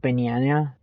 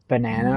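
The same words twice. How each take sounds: First: "banana" with a y-glide after the n, ba-nya-nya; mock mispronounced "banana", a y slipped in; friend's odd banana. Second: Said in the usual way. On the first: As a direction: imitate a friend saying "banana" as "binyanya". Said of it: "it'll be, like". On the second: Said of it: "if she's saying, like".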